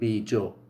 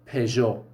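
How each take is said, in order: First: The word begins with a b sound. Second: The word begins with a p sound. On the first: "They say actually something like bijo" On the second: "It is Peugeot"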